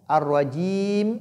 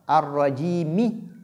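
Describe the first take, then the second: First: The word ends abruptly on the final m. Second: The word ends with a short i vowel. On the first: The speaker calls it wrong. "Je ne dis pas Ar-Rajim" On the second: The speaker calls it right. "maintenir le kasra"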